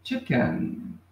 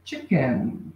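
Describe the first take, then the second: First: Teacher repeating "chicken". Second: "Chicken" said clearly with falling tune; teacher modelling "Chicken"; English word chicken. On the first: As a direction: say it again for repeating. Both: Shown as a demonstration. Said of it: "pronúncia mais uma vez".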